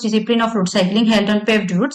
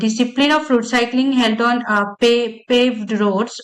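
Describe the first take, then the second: First: It is read smoothly without fillers or breaks. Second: It is read haltingly with fillers and restarts. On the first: The speaker calls it right. "আমি এই same টেক্সটটা আবার fluently পড়ে" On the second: The speaker calls it wrong. "এই মামলিং সহ প্যারাটা আমি যখন পড়ছি"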